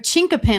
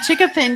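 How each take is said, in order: First: An n sound comes before the k. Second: No n sound comes before the k. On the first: The speaker calls it right. "we got the correct pronunciation" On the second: The speaker calls it wrong. "I said chickapin, didn't I?"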